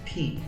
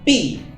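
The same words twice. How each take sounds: First: The P is said with a puff of air. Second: The P is said without a puff of air. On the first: The speaker calls it right. "é P" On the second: The speaker calls it wrong. "Não é P"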